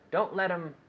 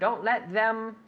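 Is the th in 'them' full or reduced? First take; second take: reduced; full. First: The th in them is quick and reduced. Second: The th in them is fully pronounced. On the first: "when we speak fast" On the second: "we have to stick our tongue out"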